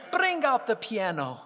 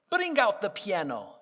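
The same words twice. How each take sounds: The two takes are said the same way.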